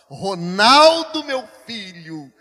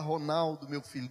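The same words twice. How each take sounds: First: It is said in a firmer, stern tone. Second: It is said in a gentle, soft tone.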